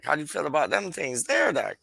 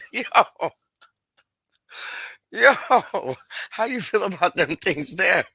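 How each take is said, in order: First: Said in the usual way. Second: Higher, mock-sly teasing voice; playful mock voice, lightly done; teasing put-on voice. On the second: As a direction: ham up the cheeky question to Doc.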